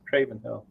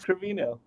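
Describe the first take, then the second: First: The name sounds like 'Craven Hill'. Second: The name sounds like 'Crevino'. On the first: The speaker calls it wrong. "I've been saying it's" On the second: The speaker calls it right. "It's Crevino"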